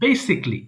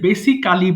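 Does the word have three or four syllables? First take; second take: three; four. First: The ending is squeezed into a single syllable. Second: The ending is said as a full extra syllable. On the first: The speaker calls it right. "এটা সঠিক উচ্চারণ হয় বেসিকলি।" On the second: The speaker calls it wrong. "এই যে বেসিক্যালি বলি"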